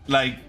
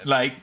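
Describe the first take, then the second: No difference in how they are said.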